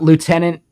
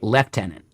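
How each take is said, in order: First: The word has an American pronunciation. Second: The word has a British pronunciation.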